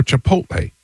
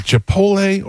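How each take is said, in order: First: "Chipotle" as chi-POHT-lay; T pronounced. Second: "Chipotle" as chi-POHL-ay; T-less pronunciation. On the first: Host asking which pronunciation is right, T-sounded version. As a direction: say "Chipotle" with a clear T before the L. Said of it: "you're hitting the T hard". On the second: Host asking which pronunciation is right, T-less version. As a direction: say "Chipotle" with the T left silent. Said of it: "Is it Chipotle or Chipotle?". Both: Shown as a demonstration.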